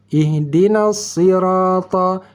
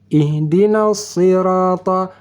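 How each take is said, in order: Both takes have the same delivery.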